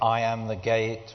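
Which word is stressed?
none. No single word is strongly stressed.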